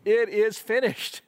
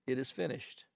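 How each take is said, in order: First: Higher and louder, beaming with joy; triumphant. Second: Quiet, resigned last words. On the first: President announcing the vaccine, triumphant and beaming. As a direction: announce victory with a big smile. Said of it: "with that big smile, he says". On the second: Patient's last words, quiet and resigned. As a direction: let it sink out softly in defeat. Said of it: "those words become words of resignation". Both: Retold or imitated.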